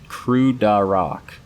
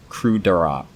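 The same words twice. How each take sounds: First: KRUDAROK drawn out slowly; sounding out. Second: KRUDAROK in one quick falling go; retrying a name. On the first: Reader working out the craft world's name, KRUDAROK slowly. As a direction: stretch KRUDAROK syllable by syllable, falling at the end. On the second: Reader retrying the craft world's name, KRUDAROK briskly. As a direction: say KRUDAROK briskly, ending downward. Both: Real, not acted.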